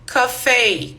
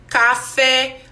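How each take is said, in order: First: "café" with a closed final E, ka-FAY; correct pronunciation. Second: "café" with an open final E, ka-FEH; wrong pronunciation. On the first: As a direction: model it right, ka-FAY. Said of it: "nós falamos café". ("café" certo, com E fechado: ka-FÊ) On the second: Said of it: "nós não falamos". ("café" errado, com E aberto no fim: ka-FÉ) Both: Shown as a demonstration.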